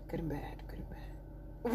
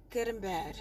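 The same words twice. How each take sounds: First: Trailing whispered repetition; whispered aside. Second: Soft, lower-pitched afterthought; quiet, low aside; hushed aside. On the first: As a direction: repeat it under the breath, barely there. Repeats it fading into a whisper. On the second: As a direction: drop right down after the outburst. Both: Real, not acted.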